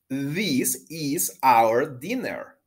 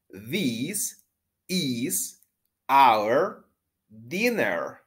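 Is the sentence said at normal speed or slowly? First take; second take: normal; slowly. First: The sentence is said at normal speed. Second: The sentence is said more slowly.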